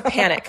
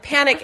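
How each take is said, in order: First: Said in the usual way. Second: Laughing. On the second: Real, not acted. Telling a friend about her husband, laughing. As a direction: repeat panic through a laugh, higher.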